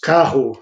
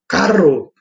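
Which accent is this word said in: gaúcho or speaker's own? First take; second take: speaker's own; gaúcho. First: It is said in the speaker's own accent. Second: It is said in a gaúcho accent. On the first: "Nós falamos carro" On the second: "o gaúcho fala carro"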